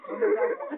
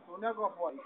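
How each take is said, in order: First: Squeaky high cartoon duck voice; voz de pato. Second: Said in the usual way. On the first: Shown as a demonstration. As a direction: pitch it way up like a duck. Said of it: "vou fazer a voz de pato". (voz de pato aguda)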